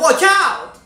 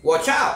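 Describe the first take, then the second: First: It is said at a higher pitch. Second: It is said at a lower pitch. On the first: "makin lama makin tinggi intonasinya" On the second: "makin lama makin tinggi"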